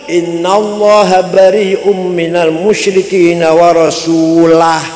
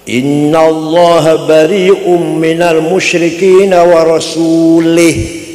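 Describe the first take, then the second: First: The final word ends with the vowel a. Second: The final word ends with the vowel i. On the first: The Messenger also disowns the idolaters, like God. The speaker calls it right. "Yang benar" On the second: God and the Messenger are both disowned by God. The speaker calls it wrong. "Ada lagi orang baca Quran salah"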